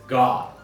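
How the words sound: The vowel is drawn out and long.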